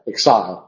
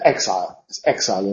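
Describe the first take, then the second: First: The stress is on the second syllable. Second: The stress is on the first syllable. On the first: This is the pronunciation of an earlier era. "sabemos que en la época de Shakespeare, en el Edinburgh en inglés, se pronunciaba exile" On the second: This is the modern pronunciation. "Es exile en inglés moderno"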